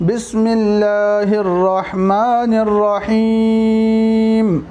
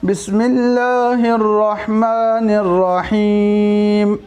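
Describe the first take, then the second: Both takes have the same delivery.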